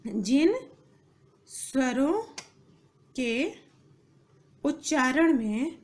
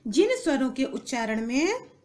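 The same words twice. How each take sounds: First: Slow, with long pauses between words; word-by-word dictation. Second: Said in the usual way. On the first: Shown as a demonstration. Teacher dictating definition to students, slow and spaced out. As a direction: dictate it one word at a time.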